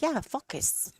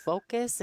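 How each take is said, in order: First: High-pitched mimicked French Canadian "focus", short vowel like "fuckus"; French Canadian accent. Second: Said in the usual way. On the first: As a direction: imitate a French Canadian insisting on "focus", sounding like a swear. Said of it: "say it in the French Canadian way". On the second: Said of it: "you're not really swearing".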